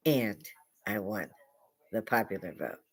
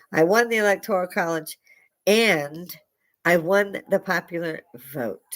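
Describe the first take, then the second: First: Quiet repeat. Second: Higher, emphatic quoted boast; Donald Trump. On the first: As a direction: drop it down low and measured. Repeats the quote as an aside. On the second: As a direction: declare it proudly, pausing around the AND. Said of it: "Donald Trump said". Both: Retold or imitated.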